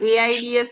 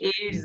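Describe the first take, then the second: First: It is spelled out letter by letter. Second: It is said as a single word. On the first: The speaker calls it wrong. "એઆઈડીએસ નથી બોલતા આપણે" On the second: The speaker calls it right. "આને આપણે શબ્દ તરીકે વાંચીએ છીએ"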